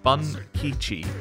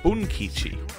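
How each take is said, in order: First: The first vowel sounds like 'uh' in 'bun'. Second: The first vowel sounds like 'oo' in 'boon'. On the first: The speaker calls it wrong. "I was reading the first bit as Bun" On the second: The speaker calls it right. "you should say it more like Boon"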